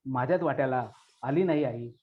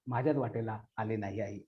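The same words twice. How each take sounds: First: Said in the usual way. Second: Quiet, lower echo of the closing line; soft fading echo. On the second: Acted. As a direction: drop the repeat to a quieter, lower close. Repeated closing line, echo take.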